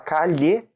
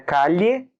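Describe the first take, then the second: First: The double L sounds like Portuguese 'lh'. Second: The double L is not a Portuguese 'lh' sound.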